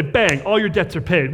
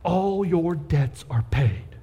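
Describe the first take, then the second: First: Punchy, upbeat "Bang" to open the good news; a cheerful, emphatic declaration; rich uncle's announcement. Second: Slow, tender. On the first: Retold or imitated. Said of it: "a rich uncle to step in and say". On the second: Shown as a demonstration. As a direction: say it gently, like a gift. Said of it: "That's what he's doing".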